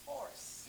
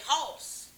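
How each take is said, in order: First: It is said in a standard accent. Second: It is said in a coastal Georgia accent. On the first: "but it's horse" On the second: "you may hear me say horse"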